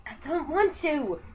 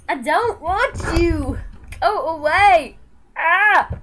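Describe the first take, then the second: First: Said in the usual way. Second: Louder push-away. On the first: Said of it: "repeated louder". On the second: Real, not acted. Pushing dog away, louder.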